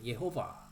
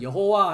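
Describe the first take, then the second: First: The name is said as 'Ye-ho-va'. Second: The name is said as 'Yeo-ho-wa'. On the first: This follows the Hebrew pronunciation of the name. "히브리어 발음이 예호바입니다" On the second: This is the usual Korean rendering of the name. "한글은 여호와 하는데요"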